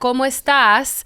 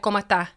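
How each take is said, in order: First: The final S sound is clearly pronounced. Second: The final S sound is dropped. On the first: "Instead of como, hola, ¿cómo estás?" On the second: "they'll just cut off the S a little bit"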